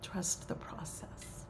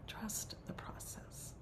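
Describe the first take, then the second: First: Slow, softened gentle counsel; soft reassurance. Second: Very soft, slow, near-whisper; hushed reassurance. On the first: Teacher closes a reflection for the circle, soft reassurance. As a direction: say it slowly and softly, letting it settle. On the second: Teacher repeats counsel to the circle, hushed reassurance. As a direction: let it sink to a hushed echo. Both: Real, not acted.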